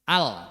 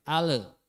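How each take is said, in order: First: The 'l' is held and ends cleanly. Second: The 'l' bounces into an added vowel. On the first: The speaker calls it right. "tapi ditahan" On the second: The speaker calls it wrong. "jangan sampai ale"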